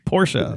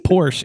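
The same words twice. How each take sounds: First: The name is said in its careful form. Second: The name is said in its everyday form. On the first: The speaker calls it right. "say it right. It's Porsche" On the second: The speaker calls it wrong. "It's not Porsche"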